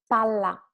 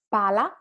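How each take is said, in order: First: Palla with a longer, firmer L; double L. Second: Pala with a brief L; single L. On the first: Teacher labels it two L, palla with held LL. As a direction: hold the LL in palla. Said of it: "two L". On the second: Teacher labels it one L, Pala said lightly. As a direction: keep the L in Pala short and light. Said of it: "one L". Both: Shown as a demonstration.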